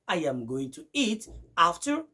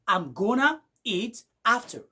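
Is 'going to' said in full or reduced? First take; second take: full; reduced. First: 'Going to' is said as two full words. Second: 'Going to' is run together as 'gonna'. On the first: "Au lieu de dire" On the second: "vous allez écouter du genre"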